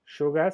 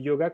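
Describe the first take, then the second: First: Yoga with a River Plate "sh" start, "shoga"; Spanish pronunciation. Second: Yoga starting on a y glide, "ee-o-ga"; French pronunciation. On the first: Teacher naming the Spanish word before translating it, Spanish pronunciation. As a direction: open Yoga on a sh sound, as in local Spanish. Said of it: "Yoga se dice yoga". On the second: Teacher giving the French version of the word, French pronunciation. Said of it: "se dice yoga". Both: Shown as a demonstration.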